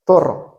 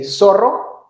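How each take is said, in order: First: The z sounds like th. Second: The z sounds like s. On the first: This is how it is said in Spain. "instead of zorro" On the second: This is how it is said in Mexico. "in Mexico, you say zorro"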